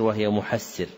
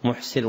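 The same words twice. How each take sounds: First: محسر as muhassir, with shadda; correct doubled form. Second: محسر as muhsir, single s; lightened, without shadda. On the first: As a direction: double the s in محسر after an a vowel. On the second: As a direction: say محسر with a still h and undoubled s. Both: Shown as a demonstration. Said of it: "أنها قرأت بالتخفيف".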